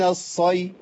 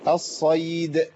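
First: The final d sound is left off. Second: The final d sound is bounced clearly. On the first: The word's meaning is changed. The speaker calls it wrong. "لو قلت من الصي يبقى أنا غيرت معنى" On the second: The word keeps its meaning. The speaker calls it right. "فلا بد من قلقلة الدال حتى تخرج من مخرجها"

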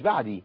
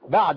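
First: The word ends with an 'i' vowel. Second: The word ends with a short 'a' vowel. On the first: The speaker calls it wrong. "مش بعدي" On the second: The speaker calls it right. "بعد دل عليها فتحة"

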